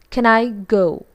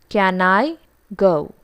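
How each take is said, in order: First: The word can is said in its weak form. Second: The word can is said in its strong form. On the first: The speaker calls it right. "this should actually be pronounced as" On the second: The speaker calls it wrong. "But we tend to pronounce this as"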